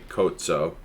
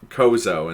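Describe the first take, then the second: First: It has an Italian-style pronunciation. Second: It has a plain English-style pronunciation. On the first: "if you pronounce that like Italian, it would be Cozzo" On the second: "you guys called them Kozo"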